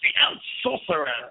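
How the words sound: It is said in a put-on character voice.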